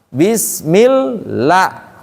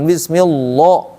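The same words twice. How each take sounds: First: The L is light, with a thin 'la'. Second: The L is heavy, with a thick 'lo'. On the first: The speaker calls it right. "maka bunyi lamnya la" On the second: The speaker calls it wrong. "bukan bismillah, nggak bisa dia"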